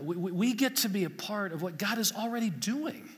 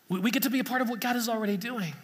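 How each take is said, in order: First: Said in the usual way. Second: Faster, pushed repeat with a new edge; emphatic repeat. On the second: Shown as a demonstration. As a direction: hammer the line home a second time. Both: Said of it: "repeated for emphasis".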